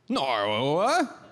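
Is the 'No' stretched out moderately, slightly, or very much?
very much. An extremely British 'No' with the most syllables.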